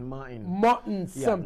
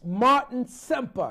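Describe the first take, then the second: First: The name is said with a marked accent. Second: The name is said in a plain everyday way.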